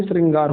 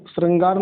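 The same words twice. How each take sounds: First: श्रृंगार said as "sringaar"; correct pronunciation. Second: श्रृंगार said as "srangaar"; the i of श्रृंगार swapped for a, "srang-gaar"; wrong pronunciation. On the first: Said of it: "श्रृंगार होता है". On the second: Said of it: "श्रृंगार नहीं". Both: Shown as a demonstration.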